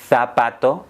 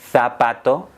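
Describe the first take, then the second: First: The z is said like English th. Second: The same.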